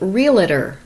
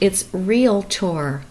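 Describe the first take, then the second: First: An extra syllable is inserted in the middle. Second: No extra syllable is inserted in the middle. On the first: The speaker calls it wrong. "A lot of people say realtor" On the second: The speaker calls it right. "look at the order of the letters, it's realtor"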